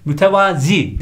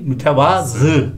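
First: MÜTEVAZI ending in dotted i; wrong pronunciation. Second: MÜTEVAZI ending in ı, slowly; correct pronunciation. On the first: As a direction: say mütevazi with final -zi. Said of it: "değil". (yanlış söyleniş, mütevazi) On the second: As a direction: say mütevazı with final -zı. (doğru söyleniş, mütevazı) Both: Shown as a demonstration.

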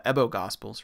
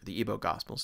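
First: "Ebo" opening on a short e, as in bed. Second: "Ebo" opening on a long ee, as in see. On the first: Art lecturer offering one reading of the name, "Ebo" as EBB-oh. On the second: Art lecturer offering the other reading, "Ebo" as EE-boh. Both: Shown as a demonstration. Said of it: "depending on how you want to pronounce it".

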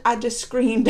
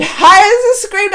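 First: Said in the usual way. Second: Loud, higher, drawn-out SCREAMED; screamed emphasis. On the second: Shown as a demonstration. Vlogger showing viewers how she reacted, loud and drawn out. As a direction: belt out "screamed" slowly, with a laugh.

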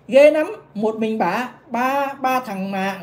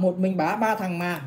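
First: Very slow, drawn-out, louder scandalised read; mock astonished reading. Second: Said in the usual way. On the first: The vlogger reads a gossip message aloud, drawn-out mock shock. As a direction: stretch each word like juicy gossip.

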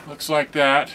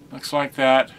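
The two takes are said the same way.

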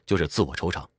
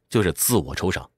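The two takes are said the same way.

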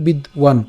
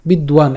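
First: বিদ্বান split as bid, wan; a small gap after bid in বিদ্বান; said separated. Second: বিদ্বান run together as bidwan; said joined. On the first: Teacher showing the word said in parts, separated বিদ্বান. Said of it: "আলাদা করে বললে". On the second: Teacher showing the word said together, joined বিদ্বান. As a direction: glide straight from d into w in বিদ্বান. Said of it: "একসাথে বললে বিদ্বান". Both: Shown as a demonstration.

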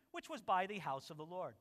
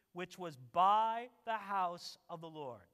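First: Said in the usual way. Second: Slow, louder, stress on "by"; slow, weighted reading. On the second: Shown as a demonstration. Preacher rereading the verse to the congregation, slow and weighted. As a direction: lean on "by" to stress how public it was. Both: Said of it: "And notice this".

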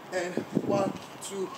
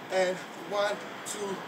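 No difference in how they are said.

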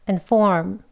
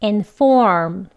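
First: "and form" with first vowel reduced to schwa; quicker, lighter "and form"; weak form. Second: "and form" with clear first vowel, long "form"; careful, strong "and", lengthened "form". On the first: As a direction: say "and" short and weak before "form". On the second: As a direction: say "and form" fully and emphatically. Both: Shown as a demonstration. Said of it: "비교를 해보면".

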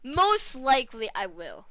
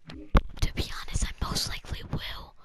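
First: Said in the usual way. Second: Unvoiced, secretive whisper; whispered confession. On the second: Real, not acted. Gamer admitting to viewers he will sell, whispered. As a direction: whisper it like an admission. Confides to viewers, then repeats aloud.

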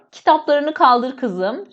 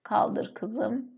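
First: Spelled out slowly for writing; slow dictation. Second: Soft, slowed repeat while writing; quiet dictation. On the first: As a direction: dictate each word slowly for the class. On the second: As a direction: murmur it to yourself as you write it on the board. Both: Shown as a demonstration. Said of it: "Şöyle".

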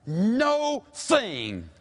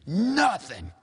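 First: NO THING drawn out as two words, high; split into two words. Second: NOTHING as one word, pitched up. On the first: Preacher quoting Luke on God's power, split emphatically. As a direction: hold a long high NO, then THING. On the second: Preacher quoting Luke on God's power, one word. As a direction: hit NOTHING whole, with a short first vowel. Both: Shown as a demonstration. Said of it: "made up of two words".

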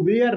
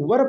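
First: Were said as two sounds, "we-er"; the wrong way: were stretched like "weer"; wrong pronunciation. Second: Were said as one short syllable, "wur"; the right way: were short, like "wur"; correct pronunciation. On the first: Teacher showing students the common mistake, "we-er". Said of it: "इसको were नहीं पढ़ेंगे". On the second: Teacher giving students the correct short "wur". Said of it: "इसको were पढ़ेंगे". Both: Shown as a demonstration.

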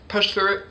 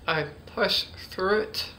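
First: Said in the usual way. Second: Slow, careful "push through it"; deliberate, drawn-out "push through it"; focused push-through. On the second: Shown as a demonstration. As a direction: work through "push through it" slowly, word by word. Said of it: "See, I kinda focused".

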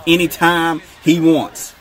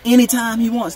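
First: "anytime he wants" slow and loud, word by word; emphatic warning. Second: "anytime he wants" high and loud in one push; insistent repeat. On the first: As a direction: stretch out "anytime he wants" with heavy weight. Hammering home a defensive warning. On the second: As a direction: drive "anytime he wants" home, pitched up. Repeats warning after "hear me. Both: Real, not acted.

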